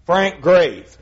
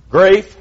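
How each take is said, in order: First: Frank Grafe with Grafe rhyming with safe; repeating the pronunciation. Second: Grafe said as one syllable, rhyming with safe; pronounced on request. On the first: Preacher confirms the songwriter's name, repeating Grafe as heard. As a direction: settle the name, stressing Grafe. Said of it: "That'll work. We'll go with that". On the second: Asked by the preacher for the surname, Grafe spoken clearly and louder. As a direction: Grafe called out louder, rising at the end. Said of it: "pronounce that last name if you would". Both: Shown as a demonstration.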